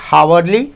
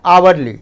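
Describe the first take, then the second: First: The word starts with an audible h sound. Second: The word starts with a vowel, no h. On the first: The speaker calls it wrong. "तो हम तो हा नहीं बोलते हैं" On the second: The speaker calls it right. "हम बोलते हैं आवरली"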